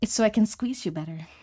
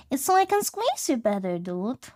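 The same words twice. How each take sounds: First: Said in the usual way. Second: Put-on pitched way up, sing-song baby talk; high cooing pet voice. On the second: Talking to a scrunchy pet, high baby talk.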